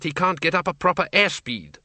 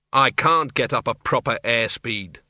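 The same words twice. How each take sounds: First: Higher, brisk wifely explaining; Doreen, the wife, explaining her husband's flight trouble; Doreen's higher voice. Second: Arthur, the husband, grumbling as he gets up. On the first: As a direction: explain it for him, a bit higher. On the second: Arthur repeats wife's words. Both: A narrator's reading.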